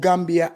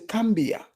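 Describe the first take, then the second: First: The word begins with a G sound. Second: The word begins with a K sound. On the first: This is the name used historically. The speaker calls it right. "Gambia has been called Gambia as far back as we know" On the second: Some local speakers cannot pronounce the G. The speaker calls it wrong. "They cannot say the G. So they would say cambia"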